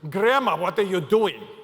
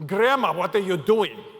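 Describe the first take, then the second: First: It is said in an upset, annoyed tone. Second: It is said in an upset, annoyed tone.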